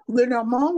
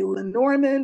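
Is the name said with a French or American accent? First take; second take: French; American. First: The name is said the French way. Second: The name is said the American way.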